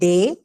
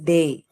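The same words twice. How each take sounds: First: The vowel stays one steady sound. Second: The vowel glides as a diphthong. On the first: The speaker calls it wrong. "It's not day" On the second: The speaker calls it right. "it is day ... The A and E"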